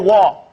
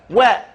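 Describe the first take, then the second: First: The vowel is a broad, open 'ah' sound. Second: The vowel is a fronted, 'eh'-like sound. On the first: The speaker calls it wrong. "This is a word that's pronounced very wrong most of the time. They go wah" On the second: The speaker calls it right. "It's not wah, it's where"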